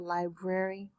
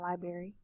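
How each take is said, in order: First: The R after the B is pronounced. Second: The R after the B is dropped. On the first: The speaker calls it right. "the R" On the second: The speaker calls it wrong. "not library"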